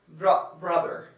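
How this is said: The final r is clearly sounded. "like the American saying brother"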